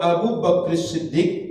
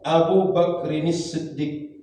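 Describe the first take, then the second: First: Bakr runs straight into Siddiq without 'nis'. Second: An added 'nis' links Bakr to Siddiq. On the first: The speaker calls it wrong. "berarti hilang satu harokat" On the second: The speaker calls it right. "begitu cara bacanya"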